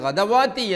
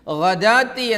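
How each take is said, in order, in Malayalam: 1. w ശബ്ദം നീണ്ട സ്വരത്തിന് മുമ്പേ വരുന്നു. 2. ഈ വാക്കിൽ w ശബ്ദമില്ല. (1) "ഓതരുത്" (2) "ഗദാത്തി എന്നല്ലാതെ"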